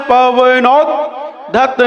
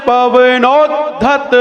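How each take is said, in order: No difference in how they are said.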